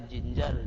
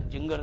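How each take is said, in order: First: "जिंजर" में दोनों जगह ज; सही ज उच्चारण. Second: "जिंगर" के बीच में ज की जगह ग; गलत ग उच्चारण. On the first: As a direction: ginger को ज-ज से "जिंजर" बोलें. ("जिंजर" में बीच की ध्वनि ज) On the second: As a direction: ginger के बीच में ग लाकर "जिंगर" बोलें. ("जिंगर" में ग की ध्वनि) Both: Shown as a demonstration. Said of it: "जिंगर नहीं होता".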